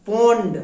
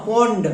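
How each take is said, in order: No difference in how they are said.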